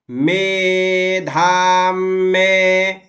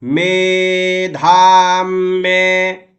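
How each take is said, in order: First: मेधाम में said slowly, weight moved onto में; held में. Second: मेधाम drawn out slowly with the म held; held long vowels. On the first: Teacher repeating मेधाम में for students, slow, stress on में. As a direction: draw out में after a held म. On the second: Teacher showing students how to say मेधाम, slow and held. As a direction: stretch मेधाम, lean on the doubled म. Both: Shown as a demonstration. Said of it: "आप देखिएगा".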